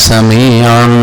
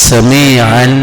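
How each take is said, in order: No difference in how they are said.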